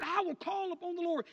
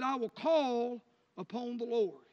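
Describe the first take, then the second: First: "I will call upon the Lord" pitched up with weight on "I"; raised declaration. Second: Slow, deliberate, each word weighed; slow solemn reading. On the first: Preacher demonstrating the call to the church, lifted and declared. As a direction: proclaim it higher, leading with "I". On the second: Preacher showing the church how to call on the Lord, slow and solemn. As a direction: lay down "I will call upon the Lord" slowly and heavily. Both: Shown as a demonstration. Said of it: "Let me show you this".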